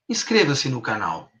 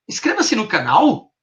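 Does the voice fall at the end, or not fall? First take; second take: fall; not fall. First: The pitch falls steadily like a command. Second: The pitch does not fall at the end.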